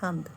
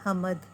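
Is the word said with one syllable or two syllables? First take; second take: one syllable; two syllables. First: The m and d join, making one syllable. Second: A vowel separates m and d, making two syllables. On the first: "इन सबको सिर्फ एक syllable में पढ़ने के लिए" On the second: "अगर हम मीम के ऊपर ज़बर का इस्तेमाल करते हैं तो वो पढ़ा जाएगा हमद"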